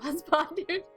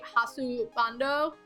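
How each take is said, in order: First: It sounds like English 'husband' ending in 'us'. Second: It has Japanese-style syllables ending in 'o'. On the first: The speaker calls it wrong. "I pronounced it wrong on purpose" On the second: The speaker calls it right. "actually would be hasubando"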